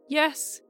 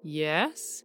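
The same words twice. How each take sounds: First: The word is said on a high pitch. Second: The word is said with rising pitch. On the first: "a high" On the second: "a rising"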